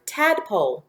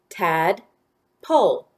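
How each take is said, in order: First: Said in the usual way. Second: "Tadpole" slowly, broken by a long pause after tad; split into syllables. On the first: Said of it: "Say the word tadpole". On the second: Shown as a demonstration. Teacher taps the syllables for pupils, slow syllable-by-syllable split. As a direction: say "Tadpole" as two separate beats, tad, pole. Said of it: "Let's tap the syllables".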